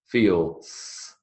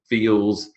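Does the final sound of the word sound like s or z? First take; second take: s; z. First: The word ends with a voiceless s sound. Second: The word ends with a voiced z sound. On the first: The speaker calls it wrong. "It's never" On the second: The speaker calls it right. "you're coming out with the sound of a z"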